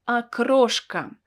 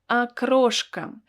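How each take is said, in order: The two takes are said the same way.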